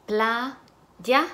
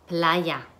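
First: Playa split as "pla... ya", lifting on the end; syllable by syllable. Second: Said in the usual way. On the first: Shown as a demonstration. Teacher blending syllables for students, syllable by syllable. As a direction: break Playa into two separate syllables. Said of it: "van a segmentar sílabas".

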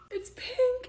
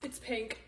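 First: "It's pink" jumps high and rises, thrilled; delighted. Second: Said in the usual way. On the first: Real, not acted. Unboxing a gift camera, thrilled that it is pink.

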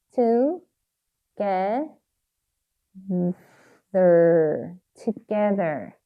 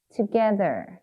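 First: "Together" in syllables with long gaps; sounding out while writing. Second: Said in the usual way. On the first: Shown as a demonstration. Teacher writing "Together", sounding it out very slowly. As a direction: stretch "Together" out as each part is written. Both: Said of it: "발음하시면서 꼭 쓰셔야 돼요".

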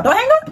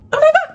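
First: High, pleading call of don't hang up; a mock plea shouted up high. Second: Even higher and louder, desperate call; a mock plea at full pitch. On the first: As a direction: call after them before they go. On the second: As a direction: yell it after them as they hang up. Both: Calling after a friend on FaceTime.

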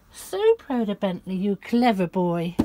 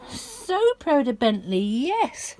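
First: Said in the usual way. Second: A touch higher, slow cooing; lightly raised pet voice. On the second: Real, not acted. Praising the dog.

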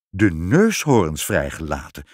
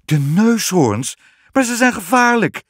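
First: Low-pitched king owning up; lightly acted, low confession; king's confession. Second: High, loud, aghast exclamation; shocked queen calling out; alarmed cry. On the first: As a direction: drop the pitch for a confiding reveal. King confesses what he has done. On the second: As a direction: cry out in disbelief, stretching the first words. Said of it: "riep de koningin". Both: A narrator's reading.

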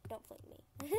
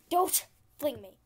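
First: Very soft, almost under the breath; quiet plea. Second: Loud protest after a laugh; louder plea. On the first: Player asking not to be flung, quiet plea. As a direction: plead softly with the game. Pleading with carrot pole. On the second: Player laughing at being flung, loud protest. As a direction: protest loudly, half amused. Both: Real, not acted.

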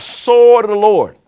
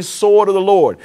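First: Loud, higher, drawn-out mock yell; retold battle cry. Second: Said in the usual way. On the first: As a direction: call it out like an army's battle cry, not a full scream. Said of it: "And they yelled out". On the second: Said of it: "God told them to say".

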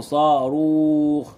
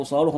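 First: صاروخ drawn out slowly, saa-ruukh; stretched pronunciation. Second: Said in the usual way. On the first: Shown as a demonstration. Teacher showing pupils how to pronounce rocket, stretched out. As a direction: hold both long vowels of صاروخ. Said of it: "نقول صاروخ". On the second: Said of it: "لما نيجي ننطق صاروخ".

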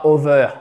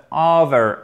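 First: "over" said with a French /œ/ vowel, the wrong version; "over" ending in a rounded French eu sound; wrong pronunciation. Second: "over" said with an r-coloured ending /ə˞/; "over" ending in an American r sound; correct pronunciation. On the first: Teacher to students, plays the wrong "over" as a mock mistake. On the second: Teacher to students, models the correct "over" clearly. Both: Shown as a demonstration. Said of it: "et pas over".

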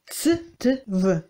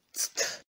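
First: Ts, t, v said one by one; sounds spelled out separately. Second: "tstv" blended into one quick whispered cluster; merged cluster whispered. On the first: Teacher to students: "ts t v" sounded out letter by letter. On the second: Teacher to students: "tstv" blended and whispered as one cluster. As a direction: run "tstv" together as one breathy sound. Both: Shown as a demonstration. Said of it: "se prononcent comme".

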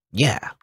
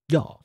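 First: Said in the usual way. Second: "Yeah" with an open, rounded "yaw" vowel; accented yeah. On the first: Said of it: "It says yeah a lot". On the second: Acted. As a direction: say "Yeah" as a short "yah". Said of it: "some kind of accent maybe".

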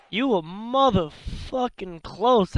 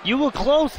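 First: Stretched-out, leaning on every word; slow exasperated stress on motherfucking; slow emphatic frustration. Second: Rising, hopeful call; pitched-up encouraging shout; high eager cheer. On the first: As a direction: drag it out, hammering close. Drawn out in frustration. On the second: Rooting for the losing fighter. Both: Real, not acted.

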